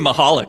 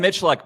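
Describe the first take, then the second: First: The surname is said with a Ukrainian-style pronunciation. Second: The surname is said with an anglicized pronunciation. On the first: This is how the name is pronounced in Ukrainian. "it's probably Mahalik or something like that" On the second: This is how the speaker says his own name. "So I'm a I'm a Michaluk"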